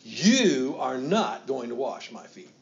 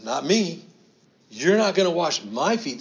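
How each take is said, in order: First: "You" hit hard, rest slow; slow, with "You" strongly emphasized; stress on you. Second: Loud, higher protest as Peter; brash refusal. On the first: Shown as a demonstration. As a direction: lean on "You", then slow down. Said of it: "it's very emphatic, the you". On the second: Acted. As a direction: push Jesus away with the words. Peter refusing Jesus washing feet.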